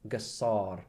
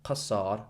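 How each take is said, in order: First: It starts with a soft g sound. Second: It starts with a deep throaty k sound. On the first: "but Gassar" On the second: "Notice I'm not saying Qasar"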